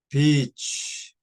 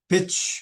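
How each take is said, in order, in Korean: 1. 모음을 길게 발음합니다. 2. 모음을 짧게 끊어서 발음합니다. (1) "긴 발음으로 하셔야 돼요" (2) "그러면 나쁜 말입니다"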